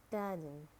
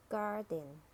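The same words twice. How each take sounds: First: "garden" with a British silent R; British "garden", said gah-dn; British accent. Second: "garden" with a sounded American R; American "garden", curl the R before d; American accent. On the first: Teacher models garden for learners, British accent. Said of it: "in British English". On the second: Teacher models garden for learners, American accent. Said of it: "R in American English". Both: Shown as a demonstration.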